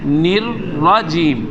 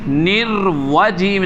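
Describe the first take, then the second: First: The second part begins with an r sound. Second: The second part begins with a w sound. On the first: The speaker calls it right. "निर्रजीम, निर्वजीम नहीं" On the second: The speaker calls it wrong. "इधर भी वाओ पढ़ा जा रहा है"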